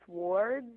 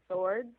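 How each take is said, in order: First: "swords" said slowly with a pronounced W; swords with the W sounded. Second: Said in the usual way. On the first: Shown as a demonstration. Actor tells hosts the line she wanted, W pronounced. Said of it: "I wanted to say swords". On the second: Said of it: "instead of swords".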